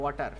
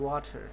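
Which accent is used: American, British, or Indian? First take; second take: Indian; American. First: It is said in an Indian accent. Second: It is said in an American accent. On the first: "Indian অ্যাকসেন্টে বলে" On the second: "American অ্যাকসেন্টে বলে"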